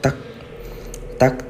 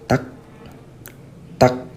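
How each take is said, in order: First: Two taps come quickly in an even rhythm. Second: Two taps come slowly with a gap between. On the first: Ordinary footsteps of a person walking. "suara orang jalan bakal kedengeran kayak tak tak" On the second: Strange footsteps that do not sound like normal walking. "Tapi kalau ini, tak, tak, terus agak kedap"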